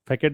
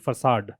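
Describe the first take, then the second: First: The word ends with a 'ket' sound. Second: The word ends with a 'sahd' sound. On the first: The speaker calls it wrong. "फैकेट नहीं है" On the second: The speaker calls it right. "इसका pronunciation है फसाड"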